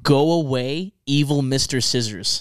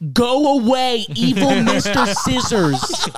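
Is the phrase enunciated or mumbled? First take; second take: mumbled; enunciated. First: The words are slurred and hard to make out. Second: Each word is pronounced with exaggerated clarity. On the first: "I can't even tell what you're" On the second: "You don't have to over enunciate"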